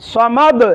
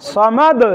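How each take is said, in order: Both takes have the same delivery.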